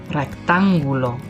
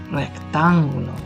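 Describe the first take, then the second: Both takes have the same delivery.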